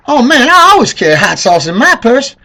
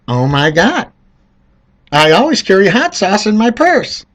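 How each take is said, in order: First: Mock Hillary with a tinge. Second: Higher mocking imitation; mock Hillary. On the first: Mocking Hillary pandering to voters, high put-on voice. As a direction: ham up her pandering accent. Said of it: "I think she said it like this". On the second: Mocking Hillary's line to voters, higher mock voice. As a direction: lampoon her pandering. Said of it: "Hillary's like".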